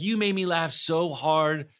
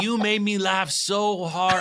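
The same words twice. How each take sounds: First: Slower, slightly raised Polish-man impression; retry the poor Polish accent more modestly; drawn-out, half-hearted Polish accent; toned-down Polish imitation. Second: Put-on high, slow stab at a Polish accent; badly faked Polish accent, drawn out; attempted Polish accent. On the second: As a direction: imitate an excited Pole with a shaky grasp of the Polish accent. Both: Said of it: "I can't do a Polish accent".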